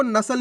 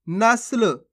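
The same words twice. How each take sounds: First: नस्ल as two syllables, na-sal; full-letter misreading. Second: नस्ल with स joined quickly to ल; half-letter pronunciation. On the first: Teacher warns learners, नस्ल misread with full सा. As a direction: put a full vowel after स in नस्ल. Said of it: "पूरा सा का उच्चारण हो जाएगा". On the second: Teacher shows the right reading, नस्ल with half स. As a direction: cut the vowel after स in नस्ल. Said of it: "जल्दी से उच्चारण कर रहे हैं". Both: Shown as a demonstration.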